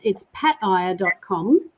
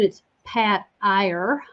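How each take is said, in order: First: The name is said in a British accent. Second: The name is said in an American accent.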